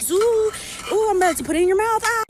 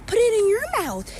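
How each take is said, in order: First: Put-on high, fast, sing-song airplane noises for a toddler; loud playful baby talk, airplane spoon game; airplane feeding game. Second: Put-on much higher, loud little kid parroting back; loud mock toddler echoing the airplane line. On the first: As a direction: coo it like you're flying food into a kid's mouth. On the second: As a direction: squeak it like a tiny child copying an adult.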